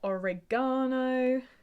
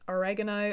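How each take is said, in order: First: It is said in a British pronunciation. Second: It is said in an American pronunciation.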